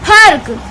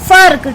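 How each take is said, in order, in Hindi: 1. शब्द की शुरुआत ph की आवाज़ से होती है। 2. शब्द की शुरुआत f की आवाज़ से होती है। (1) "अगर यहाँ पर नुक्ता नहीं होता" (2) "फा के नीचे नुक्ता है"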